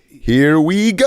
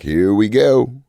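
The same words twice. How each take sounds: First: The pitch goes up, sounding excited. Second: The pitch stays flat and low.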